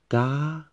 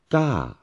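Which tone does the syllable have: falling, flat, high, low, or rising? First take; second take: high; falling. First: The pitch stays high throughout. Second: The pitch goes up and then falls. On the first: "fourth tone, the high tone" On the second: "Third one, falling tone or mountain tone"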